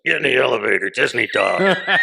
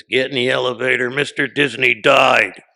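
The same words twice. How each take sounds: First: Loud imitation of mom, last words stretched; mom's blunt delivery. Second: Loud imitation of a blunt mother; mom's blunt delivery. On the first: Shown as a demonstration. Demonstrating how mom delivers bad news, loud blunt delivery. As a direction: shout it like mom's order, drawing out the ending. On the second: Mom breaks news of Disney's death to her son, loud blunt delivery. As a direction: belt out the bad news like an order, imitating mom. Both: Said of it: "that's how my mom delivers stuff".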